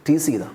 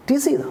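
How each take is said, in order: First: Said in the usual way. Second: ടീസ് ചെയ്ത said again higher, with a lift on ടീസ്; higher pointed repeat. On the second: Shown as a demonstration. Preacher repeats to the congregation how she was teased, pitched higher.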